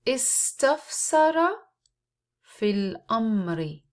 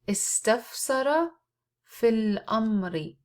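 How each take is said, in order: The two takes are said the same way.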